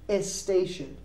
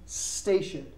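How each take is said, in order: First: An extra e vowel comes before the s. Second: It starts directly with the s sound. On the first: The speaker calls it wrong. "We don't say a station" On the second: The speaker calls it right. "We say station"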